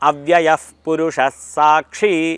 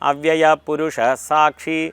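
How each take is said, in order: First: A breathy f-like sound comes before 'purusha'. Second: No breathy sound comes before 'purusha'. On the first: The speaker calls it right. "ഇഫ് എന്ന ഒരു ശബ്ദത്തോട് കൂടിയാണ് പ ഉച്ചരിക്കേണ്ടത്" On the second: The speaker calls it wrong. "എന്ന് കേട്ടിട്ടുണ്ട്"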